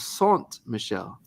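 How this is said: The name is said with a French accent. "the French way to say it"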